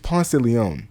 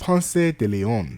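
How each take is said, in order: First: It is said with an American pronunciation. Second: It is said with a Spanish-style pronunciation.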